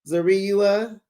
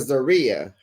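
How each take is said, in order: First: The name is said with an extra vowel sound. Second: The name is said the plain, usual way. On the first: This is how the mother says the name. The speaker calls it wrong. "Her mother calls her Zariua" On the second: This is how most people say the name. The speaker calls it right. "We call her Zaria"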